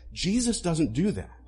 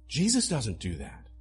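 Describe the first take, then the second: First: "Jesus" pressed firmly, a bit raised; emphatic first statement. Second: Said in the usual way. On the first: Shown as a demonstration. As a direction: state "Jesus doesn't do that" with conviction.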